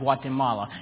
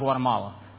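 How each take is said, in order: First: Each syllable of the word is clearly enunciated. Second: The word is blurred, sounding like guacamole. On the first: The speaker calls it right. "you say it enunciated like Brother Frank" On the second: The speaker calls it wrong. "and not Guatemala, because it does sound like guacamole"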